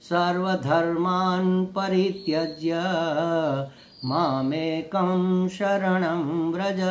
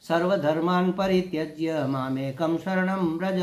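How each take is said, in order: First: It is recited at a slower, normal pace. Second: It is recited at a quick pace.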